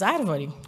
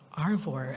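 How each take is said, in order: First: It is said with a Brazilian Portuguese accent. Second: It is said with an American English accent.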